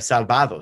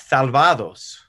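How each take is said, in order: First: The s is a plain hissing s sound. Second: The s is lisped like English th.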